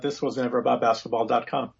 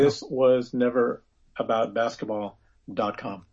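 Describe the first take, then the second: First: It is said at normal speed. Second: It is said slowly.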